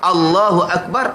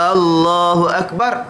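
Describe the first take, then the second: First: The first vowel of Allah is short. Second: The first vowel of Allah is drawn out long. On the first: It states that God is great. The speaker calls it right. "Allah Maha Besar" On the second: It asks whether God is great. The speaker calls it wrong. "adakah Allah Maha Besar? ... dia panjang"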